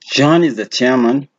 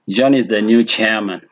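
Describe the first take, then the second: First: The pitch rises at the end. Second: The pitch falls at the end. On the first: It is a question. "it sounds like a question" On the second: It is a statement. "declarative sentences or statements end with a fallen pitch"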